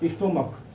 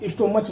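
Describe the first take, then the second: First: The word ends with a k sound. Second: The word ends with a ch sound. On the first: "स्टोमक बोलते हैं" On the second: "हम अपने उच्चारण में बोलते हैं स्टोमच, मच हो जाता है"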